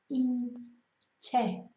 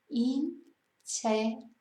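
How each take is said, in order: The two takes are said the same way.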